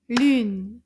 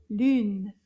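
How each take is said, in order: First: "Lune" as one loud, punched beat; counted syllable. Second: Said in the usual way. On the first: Shown as a demonstration. Teacher counts syllables with class, "Lune" punched as one beat. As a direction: clap out "Lune" as a single strong syllable. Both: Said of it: "Combien de syllabes dans le mot".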